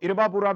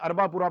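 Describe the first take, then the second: First: The name begins with an 'ee' sound. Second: The name begins with an 'ah' sound. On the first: "इसको इरबापुरा भी बोलते हैं" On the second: "अरबापुरा भी बोलते हैं"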